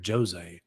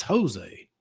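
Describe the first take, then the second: First: "Jose" said as JOE-zay, with a voiced J; Jose with a J sound. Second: "Jose" said as HO-zay, with a breathed H; Jose with H sound. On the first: Co-host objecting to fighter's name, "Jose" pronounced JOE-zay. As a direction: pronounce "Jose" with a hard English J at the start. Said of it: "he pronounces his name Jose". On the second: Shown as a demonstration. Co-host correcting the fighter's name, "Jose" pronounced HO-zay. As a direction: pronounce "Jose" Spanish-style, starting on an H. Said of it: "It's Jose".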